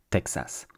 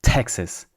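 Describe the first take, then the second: First: Texas as tek-SAS, softer, full A; soft French Texas with an open last vowel; French pronunciation. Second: Texas as TEK-sus, strong first syllable; English pronunciation. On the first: Teacher contrasts two languages, French pronunciation of Texas. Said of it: "in French we say Texas". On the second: Teacher contrasts two languages, English pronunciation of Texas. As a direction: hit the T in Texas, crush the A. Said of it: "in English you say Texas". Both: Shown as a demonstration.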